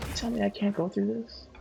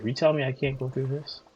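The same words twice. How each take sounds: First: Put-on high voice, questioning; high, mock-incredulous question; high-pitched repeat. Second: Said in the usual way.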